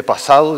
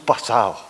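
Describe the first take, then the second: First: "pasado" with the D sounded, louder; full three-syllable "pa-sa-do"; standard D. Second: "pasado" said as "pasao"; "pasado" ending in a gliding AO; Canarian dropped D. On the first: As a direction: keep the D in "pasado". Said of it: "en vez de pasado". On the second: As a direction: drop the D of "pasado". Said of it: "la pérdida de la letra D". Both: Shown as a demonstration.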